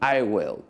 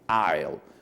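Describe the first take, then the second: First: It is said as two full separate words. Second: It is said as one contracted syllable. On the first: "it's exactly the same to mention I will" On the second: "You are going to mention I'll"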